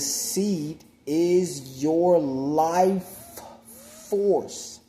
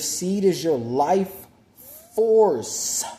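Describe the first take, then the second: First: It is spoken more slowly and deliberately. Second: It is spoken at a normal speaking pace.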